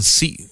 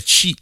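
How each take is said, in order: First: Si with s for sh; si pronounced with plain s; wrong si sound. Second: Sh at the start of shi; correct shi sound. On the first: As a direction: isolate the syllable si, no sh. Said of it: "sino decían sí". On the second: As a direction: isolate the syllable shi. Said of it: "no podían pronunciar el chi". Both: Shown as a demonstration.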